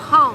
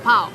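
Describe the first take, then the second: First: The word ends with a nasal 'ng' sound. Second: The word ends with a plain 'ow' sound. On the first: The speaker calls it right. "Pong, not pow" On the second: The speaker calls it wrong. "not pow"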